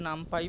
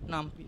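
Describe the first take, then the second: First: The last syllable sounds like "pie". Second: The last syllable sounds like "pee". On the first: Many other people say it this way. "অনেকে নামপাই বলে" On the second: The speaker personally says it this way. "দুটোই same উচ্চারণে কোনো অসুবিধা নেই"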